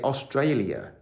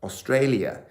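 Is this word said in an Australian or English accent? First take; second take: English; English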